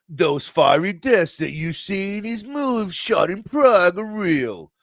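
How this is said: It is read in a put-on imitation accent.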